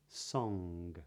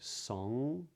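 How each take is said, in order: First: The word ends with a hard G sound. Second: The word ends without a hard G sound. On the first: "but not" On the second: "they do not pronounce a hard G at the ends of these words"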